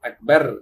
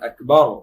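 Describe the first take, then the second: First: The r sound is light and thin. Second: The r sound is heavy and full. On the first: The speaker calls it wrong. "அப்படி சொல்லக்கூடாது" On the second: The speaker calls it right. "தடிப்பமா சொல்லணும்"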